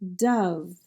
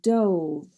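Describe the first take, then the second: First: The vowel is the short 'uh' sound. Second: The vowel is not the 'uh' sound. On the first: "some more words with the uh sound" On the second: "this word has a second pronunciation"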